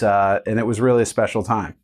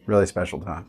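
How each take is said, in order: First: Said in the usual way. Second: Quieter, lower, tender repeat; a soft murmured afterthought; soft fond echo. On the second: Real, not acted. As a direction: savor it quietly, almost to yourself. Fond echo of own words.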